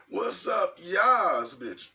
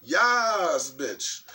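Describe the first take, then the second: First: High, sassy drawn-out shout-out; excited show opener, pitched up; hyped greeting. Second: Hyped catchphrase. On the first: Greeting the viewers before clearing the throat, hyped. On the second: Redoing the greeting after clearing the throat, loud and hyped. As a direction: belt out the catchphrase, then drop off. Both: Real, not acted.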